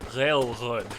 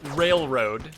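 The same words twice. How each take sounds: First: Said with an overdone throaty French R sound. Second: Said with an English R at the front of the mouth. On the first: "it would be like railroad, right? Like not exactly that. Obviously, that's like way overblown" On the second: "instead of it being like railroad"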